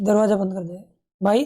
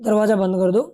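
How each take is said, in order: First: It is said in a pleading, requesting tone. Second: It is said in a plain, neutral tone.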